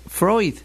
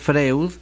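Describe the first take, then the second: First: The name is said with a German 'oy' sound. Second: The name is read letter by letter as Spanish. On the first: The speaker calls it right. "La pronunciación de su apellido siempre es Freud" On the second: The speaker calls it wrong. "Si lo pronunciamos como se escribe, Freud, quedaremos en ridículo"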